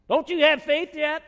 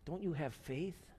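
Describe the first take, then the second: First: It is said sharply, like an exclamation. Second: It is said softly and lovingly.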